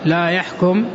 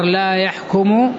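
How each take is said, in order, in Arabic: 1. الفعل ينتهي بالسكون. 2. الفعل ينتهي بضمة. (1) "بالسكون على أن لا ناهية" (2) "الضبط الآخر لا يحكم يعني نافية"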